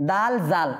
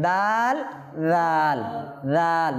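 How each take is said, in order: First: "দাল জাল" with a hard z in জাল; wrong zal. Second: "দাল রাল" with রাল as soft "dhaal", like th in "this"; tongue tip on upper teeth for a gentle, drawn-out রাল; correct soft dhal. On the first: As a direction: mistaken "daal, zaal", buzzing z in the second word. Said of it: "এরকম হবে". (দাল জাল, শক্ত z দিয়ে ভুল) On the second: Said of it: "না, কি হবে?". (রাল নরম করে, জিহ্বার আগা দাঁতের আগায়) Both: Shown as a demonstration.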